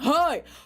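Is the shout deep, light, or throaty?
deep. A deep shout like older dudes.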